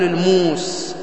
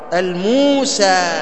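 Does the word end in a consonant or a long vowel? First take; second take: consonant; long vowel. First: The word ends in a consonant. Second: The word ends in a long a vowel. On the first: The speaker calls it wrong. "ولا تقل الموس، هذا لحن" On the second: The speaker calls it right. "هكذا لغة العرب، الموسى"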